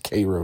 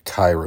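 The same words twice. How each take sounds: First: Cairo is said the local Georgia way. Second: Cairo is said the official Egyptian way. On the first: This is how the place name is said locally. "it's Cairo down here" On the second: This is how the city name is said in Egypt. "probably more official pronunciation in Egypt"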